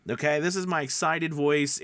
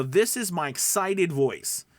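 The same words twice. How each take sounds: First: Said in the usual way. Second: Upbeat, energetic delivery, a bit slow; bright forward sell-it voice, placed in the front of the mouth; excited voice. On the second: Shown as a demonstration.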